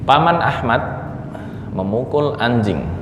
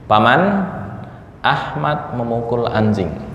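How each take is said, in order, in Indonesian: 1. Diucapkan tanpa jeda di dalamnya. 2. Diucapkan dengan jeda di dalamnya. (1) "berarti pamannya Ahmad memukul anjing" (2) "ketika dipisah di sini"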